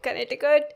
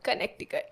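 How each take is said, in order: First: The middle c sound is left silent. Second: The middle c sound is clearly pronounced. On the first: This is how other people say it. "I've heard people calling it Connecticut" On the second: This follows the spelling. "There is C in the Connecticut"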